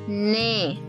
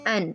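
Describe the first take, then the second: First: The letter is said as 'ne', consonant first. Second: The letter is said as 'en', vowel first. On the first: The speaker calls it right. "it's ne" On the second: The speaker calls it wrong. "It's not an"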